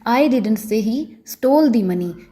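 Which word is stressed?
stole. The word 'stole' carries the stress. The money may have been taken without stealing. "अगर मैं stall पर stress डालकर बोलूँगी"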